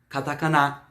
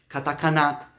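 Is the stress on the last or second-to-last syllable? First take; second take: last; last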